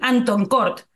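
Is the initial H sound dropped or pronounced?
dropped. The H is dropped, with a Spanish-like accent. "like it sounds very Spanish"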